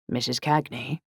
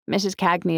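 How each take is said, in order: First: Resonant, serious British male voice; serious British man. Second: Said in the usual way. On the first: A narrator's reading. British man returning Saxony's call, resonant and serious. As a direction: ask it soberly as a British man. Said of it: "British, male, resonant, and serious".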